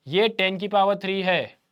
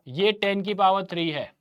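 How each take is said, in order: Both takes have the same delivery.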